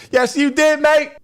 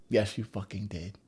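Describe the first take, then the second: First: Very high, very loud yell; mock shouted retort. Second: Said in the usual way. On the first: He contradicts his friend, high mock yell. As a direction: shriek the comeback, hammed up.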